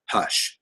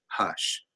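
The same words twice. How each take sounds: First: Softly, gently hushing; calm hush. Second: Much softer, lower Hush; barely there, soothing; calm hush. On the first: Wife calming her angry husband, soft and steady. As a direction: settle him with one soft word. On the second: Wife hushing her husband again, very softly. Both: Retold or imitated. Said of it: "Like, just that calm".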